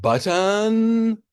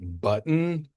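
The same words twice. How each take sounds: First: The middle t is crisply and fully released. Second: The middle t is softened, not fully released. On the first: "I over enunciate. I say it like" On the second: "Instead of saying words like"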